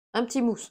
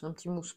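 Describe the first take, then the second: First: Pleased announcement. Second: Quiet repeat. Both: Real, not acted. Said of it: "Parfait, un petit mousse".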